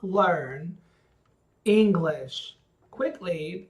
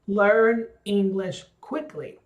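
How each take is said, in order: First: The words are spoken separately and choppily. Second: The words flow together as one phrase. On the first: The speaker calls it wrong. "so it's not" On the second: The speaker calls it right. "as one phrase"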